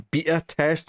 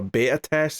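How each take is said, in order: First: Beta with a long ee, BEE-ta; English pronunciation. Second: Beta with an ay vowel, BAY-ta; preferred pronunciation. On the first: Cohost mocks English people, beta said BEE-ta. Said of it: "English people who say". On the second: Cohost gives his preferred version, beta said BAY-ta. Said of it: "instead of a beta test". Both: Shown as a demonstration.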